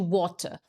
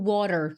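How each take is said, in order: First: The middle t is a crisp t sound. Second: The middle t sounds like a quick r. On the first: This is how the British say it. "Water geralmente fica com, com o britânico" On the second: This is how Americans say it. "você ouve o americano falando water"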